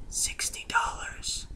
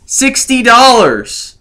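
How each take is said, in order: First: Whispered reveal. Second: Higher and slowed, hammering the sum; outraged emphasis. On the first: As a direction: drop to a breathy whisper for the price. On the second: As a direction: repeat the price in mock disbelief. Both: Acted. Dramatic price reveal.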